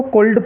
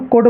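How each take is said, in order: First: कुल्ड with the L pronounced before the d; mistaken L sounded. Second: कुड said with no L sound, ending straight on d; silent L. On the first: Teacher imitating children's mistake, कुल्ड with a sounded L. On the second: Teacher showing a class the correct reading, कुड without any L. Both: Shown as a demonstration. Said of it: "कुछ बच्चे इसको कुल्ड पढ़ते हैं तो वो गलत है".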